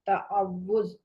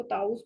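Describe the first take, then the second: First: تعوذ said ta-aw-wuz with a clear ع and a doubled و; careful correct تعوذ; correct pronunciation. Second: تعوذ said as taus, with an s and no ع; the everyday wrong تعوذ; wrong pronunciation. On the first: Teacher models the correct pronunciation for students. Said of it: "اس کا صحیح تلفظ جو ہے وہ تعوذ ہے". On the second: Teacher shows the common mispronunciation. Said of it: "عام طور پر ہم اس کو تعوذ بولتے ہیں". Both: Shown as a demonstration.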